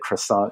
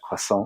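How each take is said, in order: First: It is said with an American English pronunciation. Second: It is said with a French-style pronunciation. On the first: "I don't say croissant anymore" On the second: "and now I'm that person"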